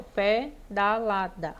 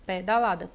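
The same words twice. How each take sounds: First: "pedalada" in four separate beats, slowly; separação silábica. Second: Said in the usual way. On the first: Shown as a demonstration. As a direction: break pedalada into pe, da, la, da. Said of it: "quatro emissões de voz". (pedalada sílaba por sílaba, devagar) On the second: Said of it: "quatro sílabas".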